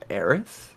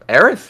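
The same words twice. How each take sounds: First: The name is asked as a puzzled question. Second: The name is called out, as if searching.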